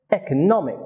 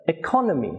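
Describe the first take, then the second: First: "economic" stressed on "nom"; stress on third syllable. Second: "economy" stressed on "con"; weak first syllable, strong "con" in "economy"; stress on second syllable. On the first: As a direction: save the strongest beat for "nom" in "economic". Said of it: "it has stress on the third syllable". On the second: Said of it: "Its stress is on the second syllable". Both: Shown as a demonstration.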